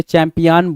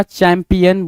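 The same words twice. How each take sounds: First: चैंपियन read as "champi-AAN"; चैंपियन said as spelt with -IAN; misspelt pronunciation. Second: चैंपियन ending in a short unstressed "-yun"; चैंपियन with a reduced final vowel; correct pronunciation. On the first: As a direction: open the last vowel of चैंपियन to a long "aan". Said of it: "हमने चैंपियन बोल दिया". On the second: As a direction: say चैंपियन as "cham-pi-un". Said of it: "चैंपियन बोलना था". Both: Shown as a demonstration.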